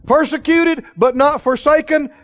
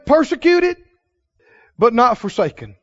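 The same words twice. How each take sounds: First: "Persecuted" high, "forsaken" rung out loud; loud preached verse. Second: "Persecuted" lifted high, "not" leaned on; quoted scripture. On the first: Acted. Preacher thunders the verse again, louder. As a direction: shout "Persecuted, but not forsaken" to the church. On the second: Retold or imitated. Preacher quotes scripture to the congregation. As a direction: read "Persecuted, but not forsaken" with a lift. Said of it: "he goes on to say".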